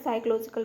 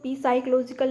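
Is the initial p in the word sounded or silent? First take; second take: silent; sounded. First: The word begins with an s sound. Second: The word begins with a pronounced p sound. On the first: The speaker calls it right. "साइकोलॉजिकल पढ़ना है" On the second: The speaker calls it wrong. "पी silent है तो इसको पी साइकोलॉजिकल नहीं पढ़ना है"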